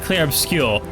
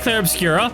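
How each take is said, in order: First: The last word ends without any added vowel. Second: The last word ends with an added 'ah' vowel. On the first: The speaker calls it right. "Fine, it's Lune and it's uh, Clair Obscure" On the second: The speaker calls it wrong. "so I'll say Clair Obscura"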